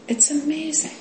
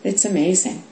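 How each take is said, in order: First: High, soft mock amazement; a hushed, high gasp of wonder; mock awe. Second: Said in the usual way. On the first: Shown as a demonstration. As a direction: float "amazing" up in wonder.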